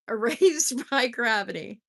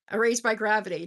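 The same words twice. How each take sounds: First: Corrected title through a laugh; laughing correction. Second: Said in the usual way. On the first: Shown as a demonstration. Reader fixing her misread title, laughing. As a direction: laugh while saying it right. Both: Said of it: "Did I say gratitude?".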